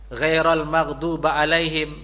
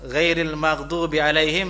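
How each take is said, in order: First: The first two words end in a vowels. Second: The first two words end in i vowels. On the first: The speaker calls it wrong. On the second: The speaker calls it right.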